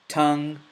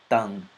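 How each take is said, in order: First: It starts with an English t sound. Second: It starts with a dental t sound. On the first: "So the first with the T" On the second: "next with the ta"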